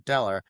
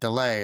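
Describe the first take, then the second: First: The name ends in an 'er' sound. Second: The name ends in an 'ay' sound. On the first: The name is read without an accent mark. "as opposed to Deller" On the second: The name is read with an accent mark on it. "they put an accent uh, goo on the second one, so you pronounce it delay"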